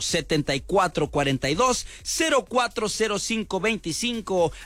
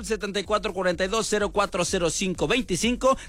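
First: The number is read at a slower pace. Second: The number is read at a faster pace.

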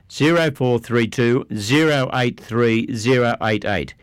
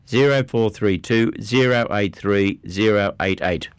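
No difference in how they are said.

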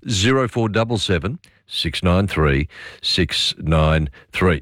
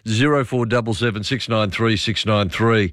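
First: The number is read slowly and deliberately. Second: The number is read at normal quick speed.

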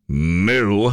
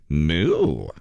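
First: It sounds sarcastic. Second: It sounds flirty.

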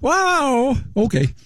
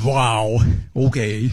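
First: It sounds supportive. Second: It sounds disappointed.

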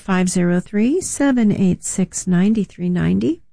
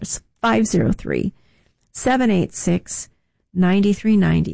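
First: The number is said at normal speed. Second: The number is said more slowly.

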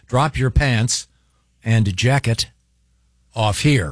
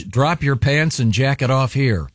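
First: It is read slowly with careful precision. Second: It is read casually, without special care.

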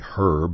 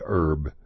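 First: It is said British style with the h sounded. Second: It is said Texan style with the h dropped.

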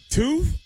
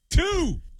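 First: The voice rises at the end, like a question. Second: The voice falls at the end, said with conviction.

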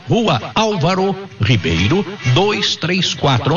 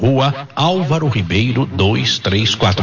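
First: It is said slowly. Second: It is said at normal speed.

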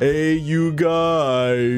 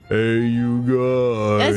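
First: It is said in a higher voice. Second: It is said in a lower, deeper voice.

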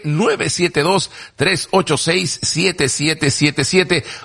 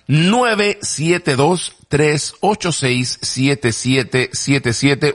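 First: The number is said at normal speed. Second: The number is said more slowly.

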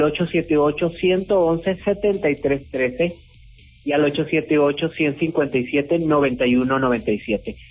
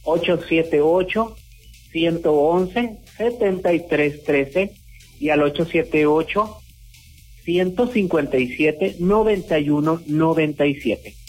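First: The numbers are read at normal speed. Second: The numbers are read more slowly.

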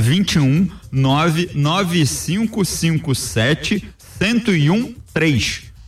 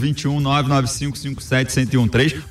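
First: The number is said slowly. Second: The number is said quickly.

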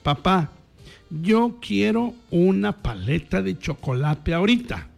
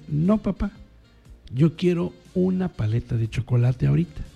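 First: It is said in a more demanding tone. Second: It is said in a calm, ordinary tone.

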